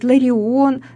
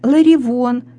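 First: The vowels follow each other with no consonant. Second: A v sound is inserted between the vowels. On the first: It is the standard pronunciation. The speaker calls it right. "правильно говорит" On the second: It is a colloquial pronunciation. The speaker calls it wrong. "в просторечии"

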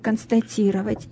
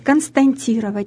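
First: No n sound comes before the t. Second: An extra n sound comes before the t. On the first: The speaker calls it right. "вместо «констатировать»" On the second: The speaker calls it wrong. "люди говорят «константировать»"

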